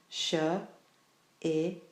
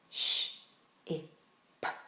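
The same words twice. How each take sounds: First: Each sound ends with an added uh vowel. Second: Each sound is short with no vowel after. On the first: The speaker calls it wrong. "If they add the uh sound ... to the end of each of the individual sounds" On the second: The speaker calls it right. "If they do this in this way, they will already be able to hear the word"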